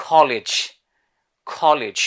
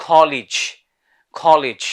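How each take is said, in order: No difference in how they are said.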